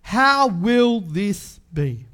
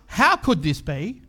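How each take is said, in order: First: Slow, sure how will this be; calm question. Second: How could this be, slower, unsure; the wrong reading, how could, hesitant; doubting question. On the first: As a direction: stress will, a settled question. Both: Shown as a demonstration. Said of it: "It's not".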